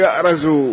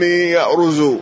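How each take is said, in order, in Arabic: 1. يأتي بعد الراء الصائت a. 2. يأتي بعد الراء الصائت u. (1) "وبعضهم يقول يأرز" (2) "وإما بالضم"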